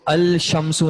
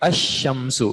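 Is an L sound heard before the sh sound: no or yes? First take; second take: yes; no. First: The L is pronounced before a single sh. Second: No L is heard; the sh is doubled. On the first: The speaker calls it wrong. "इसको अल शमसु नहीं पढ़ा जाता" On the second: The speaker calls it right. "बल्कि अशमसु, शीन को दो बार"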